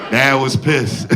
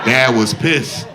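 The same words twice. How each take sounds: First: Said in the usual way. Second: Slow, drawn out. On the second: Acted. Comic announcing his dad's anger, slow drawn-out emphasis. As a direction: stretch it out slow, with a rising finish. Punchline said twice, first drawn out.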